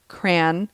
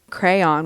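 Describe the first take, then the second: First: It is one syllable rhyming with man. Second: It is said with two syllables, cray-on. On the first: "some people say cran, As in cranberry" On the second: "We say crayon with two syllables"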